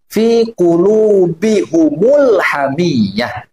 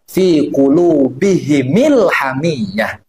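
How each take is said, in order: First: The plural m is followed by a u vowel. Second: The plural m is followed by an i vowel. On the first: "dengan mendomahkan mim jama" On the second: "dengan mengkasrohkan mim jamaknya"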